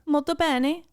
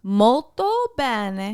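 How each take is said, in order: First: Italian phrase. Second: Slowed, careful Molto bene; patient teaching repeat; slow correction. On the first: Acted. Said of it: "what's that mean?". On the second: Shown as a demonstration. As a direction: spell out Molto bene slowly to correct him. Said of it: "Multi pennies?".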